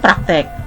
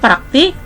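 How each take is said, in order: First: The last syllable has an e vowel. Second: The last syllable has an i vowel. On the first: The speaker calls it wrong. "tidak baku itu praktek" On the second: The speaker calls it right. "kata baku itu praktik"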